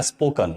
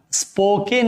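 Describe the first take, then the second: First: स्पोकन with a short, reduced second syllable, spo-kun; correct pronunciation. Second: स्पोकन with a long drawn-out e, spo-keen; wrong pronunciation. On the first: Teacher models the right pronunciation of स्पोकन for students. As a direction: say स्पोकन right, lightly and quickly ending on kun. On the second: Teacher shows students the common mispronunciation of स्पोकन. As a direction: say स्पोकन the wrong way, stretching the second vowel long. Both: Shown as a demonstration. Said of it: "इसका सही उच्चारण होता है spoken, not spoken".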